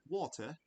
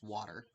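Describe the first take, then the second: First: The word is said in a British accent. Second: The word is said in a Canadian accent. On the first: "in Britain they s- that you'll hear like water" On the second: "Canada is water"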